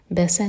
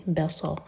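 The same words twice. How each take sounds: First: بسا with a thin, light س; the mistake: بسا with a plain light س; wrong light seen. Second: بصا with a thick, heavy ص; heavy saad. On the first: Teacher showing students the wrong sound, light seen. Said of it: "بسا نہیں". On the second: Teacher giving the right sound to students, heavy saad. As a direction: say بصا with a full emphatic ص. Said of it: "بسا نہیں، صاد ہے". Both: Shown as a demonstration.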